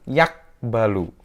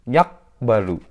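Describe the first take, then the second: The two takes are said the same way.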